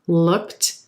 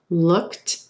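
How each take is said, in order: Both takes have the same delivery.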